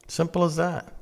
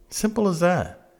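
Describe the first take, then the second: No difference in how they are said.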